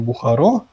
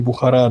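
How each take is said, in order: First: The name ends with an 'o' sound. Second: The name ends with an 'a' sound. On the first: This is the form locals use. "для меня было откровение Бухаро" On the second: This is the form locals do not use. "они говорят не Бухара"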